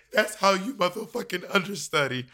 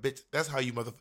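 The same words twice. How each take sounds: First: Mock [name] catchphrase, higher and louder through a laugh; a playful [name] impression breaking into laughter. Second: Said in the usual way. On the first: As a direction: ham up a [name] pronouncement. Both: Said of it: "it's like [name]".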